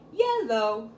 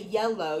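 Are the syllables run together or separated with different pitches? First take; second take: separated; together. First: The syllables are separated with different pitches. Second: The syllables run together on one smooth pitch. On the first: The speaker calls it right. "break up the syllables in different tones" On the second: The speaker calls it wrong. "you don't say yellow"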